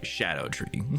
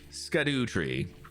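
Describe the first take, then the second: First: The word begins with an 'sh' sound. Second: The word begins with an 'sk' sound. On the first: The speaker calls it right. "is more like shadow tree" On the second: The speaker calls it wrong. "even though it does look like skadoo tree"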